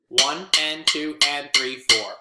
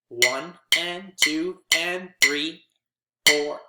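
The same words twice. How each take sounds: First: Three and four follow quickly with no gap. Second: A long gap separates three and four. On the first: The long notes are rushed like short ones. The speaker calls it wrong. "if I count it like this, ... that's not right" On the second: The long notes get their full length. The speaker calls it right. "Even if I take the and out"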